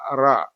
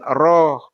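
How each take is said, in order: First: The vowel is an open 'a' sound. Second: The vowel is a rounded 'o' sound. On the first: The speaker calls it right. "dibaca ra" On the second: The speaker calls it wrong. "bukan roh"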